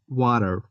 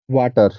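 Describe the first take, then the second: First: It is said with an American English accent. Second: It is said with an Indian English accent. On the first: "In American accent, I'm not sure, but maybe it's like water" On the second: "in India, we say water"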